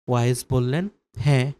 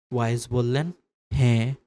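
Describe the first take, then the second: No difference in how they are said.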